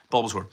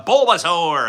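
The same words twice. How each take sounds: First: Said in the usual way. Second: High, loud, drawn-out creature cry; bad Bulbasaur imitation. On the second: Streamer badly imitating a favorite Pokemon, creature voice. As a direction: stretch the name out like the creature calling. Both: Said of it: "That's not how he sounds".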